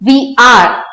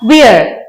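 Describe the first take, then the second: First: Said as two full separate words. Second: Said as one short contracted word.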